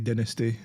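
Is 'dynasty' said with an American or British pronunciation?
British. The word has a British pronunciation. The speaker calls it right. "us in the U K we say dynasty"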